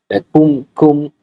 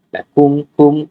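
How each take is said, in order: Both takes have the same delivery.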